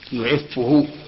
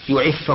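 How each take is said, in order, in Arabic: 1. الحركة بعد الفاء المضعّفة هي u. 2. الحركة بعد الفاء المضعّفة هي a. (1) "يعفه بالضم" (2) "يخفف بالفتحة، فيقال مثلا"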